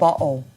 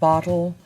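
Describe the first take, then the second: First: The T is replaced by a glottal stop. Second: The T is sounded as a clear T.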